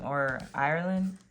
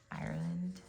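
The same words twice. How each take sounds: First: Ireland asked with a rising question tune; unsure question. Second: Ireland said softly with a falling, decided tune; settled answer. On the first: Reader asks viewers which country it is, questioning. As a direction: ask Ireland like you're not sure. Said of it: "is it Scotland?". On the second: Reader settles on the country for herself, quietly sure. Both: Real, not acted.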